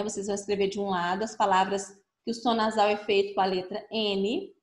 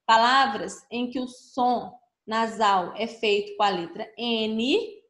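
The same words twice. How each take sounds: First: Said in the usual way. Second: Slow dictation. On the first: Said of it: "explains the same task". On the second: Shown as a demonstration. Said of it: "Complete o quadro abaixo".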